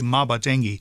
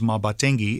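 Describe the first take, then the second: First: The word is said with the tune for 'my gift'. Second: The word is said with the tune for 'gift'. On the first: It refers to my gift. "it means my gift" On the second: It refers to a gift. "it means gift"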